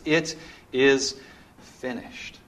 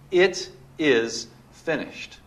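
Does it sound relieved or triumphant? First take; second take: relieved; triumphant. First: It sounds like a sigh of relief. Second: It sounds like a victorious shout.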